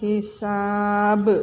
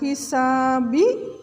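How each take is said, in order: First: The word ends abruptly on the final consonant. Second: The word ends with a spoken final vowel. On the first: The speaker calls it right. "tapi syari'ul hisab" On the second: The speaker calls it wrong. "bukan hisabi"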